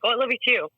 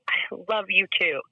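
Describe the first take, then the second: First: It is said quickly and casually. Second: It is said slowly and sincerely.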